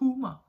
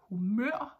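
First: The stress is on the first syllable. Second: The stress is on the last syllable.

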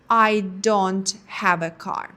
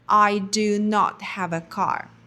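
First: The negative is said as one contracted word. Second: The negative is said as two full words. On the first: "вони скорочують do not і виходить don't" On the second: "заперечення «не маю» в англійській мові звучить як do not"

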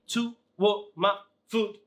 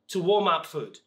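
First: The words are said separately, one by one, like a robot. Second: The words are linked smoothly together, like natural speech. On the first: The speaker calls it wrong. "I don't say to warm up food. No" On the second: The speaker calls it right. "it needs to be natural"

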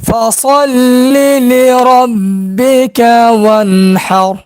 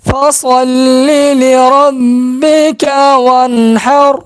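Both takes have the same delivery.

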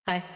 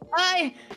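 First: It is said flatly, with little energy. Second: It is said loudly, with lots of energy.

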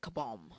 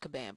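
First: The name is said in a fancy-sounding way. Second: The name is said the ordinary, standard way. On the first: This is a playful pronunciation chosen for fun. The speaker calls it wrong. "I just want to say kabam. Sounds fancy" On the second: This is how the name is really pronounced. The speaker calls it right. "I know it's kabam"

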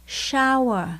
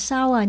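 First: The word begins with an sh sound. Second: The word begins with a plain s sound. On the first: The speaker calls it right. "chữ S và chữ H đứng chung với nhau phải đọc là sh" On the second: The speaker calls it wrong. "chứ không phải là sour"

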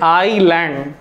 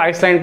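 First: The word is said with no s sound. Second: The word is said with an s sound. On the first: The speaker calls it right. "एस silent होता है, एस की आवाज नहीं आती" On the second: The speaker calls it wrong. "बहुत लोग इसको आइसलैंड पढ़ते हैं"

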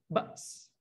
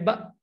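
First: The final s sound is clearly heard. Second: The final s sound is dropped. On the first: The speaker calls it right. "sin tu mati dia kena bunyi juga" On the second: The speaker calls it wrong. "jangan wahinal ba', sin tu tak bunyi, hilang"

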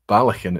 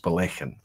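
First: The stress is on the first syllable. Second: The stress is on the second syllable. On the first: The speaker calls it wrong. "It's not Balakin" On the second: The speaker calls it right. "it's Balakin. So it's the second syllable"

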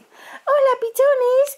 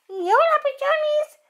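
First: It is said in a put-on voice for Mina. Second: It is said in her normal voice.

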